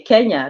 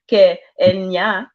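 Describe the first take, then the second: First: The word is said smoothly without a break. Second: The word is split into two separate parts. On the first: The speaker calls it right. "you say Kenya" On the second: The speaker calls it wrong. "you don't say Ke Enya"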